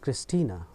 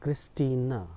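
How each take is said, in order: First: The name ends with a short 'a' vowel. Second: The name ends with a short 'a' vowel.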